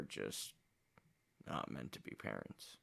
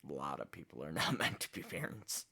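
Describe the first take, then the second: First: Low, hushed and heavy; quiet sad. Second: Repeats it with a rueful chuckle; bitter laugh. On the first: Reacting to his family's rejection, quiet sadness. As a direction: let it sink, barely audible. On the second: Repeating the line about parents, rueful laughing. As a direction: laugh through it in disbelief. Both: Real, not acted.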